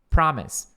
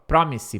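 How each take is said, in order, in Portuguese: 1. A primeira vogal é um som de 'ah' aberto. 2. A primeira vogal é um som de 'o' arredondado. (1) "Pra, que nem o fa de father" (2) "não é promise, pro"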